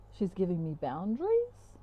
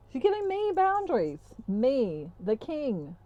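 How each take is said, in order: First: Puzzled question with a big rise at the end; baffled disbelief. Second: Much higher, mock-outraged emphasis on me; haughty squawk of disbelief, then regal falling tones; indignant. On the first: Retold or imitated. Masculine reacting to her setting limits, mock baffled. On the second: Masculine as king affronted by boundaries, mock indignant.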